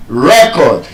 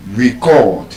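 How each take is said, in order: First: "Record" as REC-ord, first syllable stressed; noun stress. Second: "record" as ri-CORD, second syllable stressed; short ri-, long CORD in "record"; verb stress. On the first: Teacher giving word pairs, first-syllable stress on "Record". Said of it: "stressed on the first syllable". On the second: Teacher giving word pairs, second-syllable stress on "record". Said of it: "stressed on the second syllable". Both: Shown as a demonstration.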